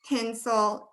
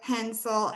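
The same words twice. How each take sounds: First: The first vowel sounds like the vowel in 'pin'. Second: The first vowel sounds like the vowel in 'pen'. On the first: This is another person's pronunciation in a different accent. "for my husband, it is silver pin. So he would say" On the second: This is the speaker's own pronunciation. "for me, it's red pepper"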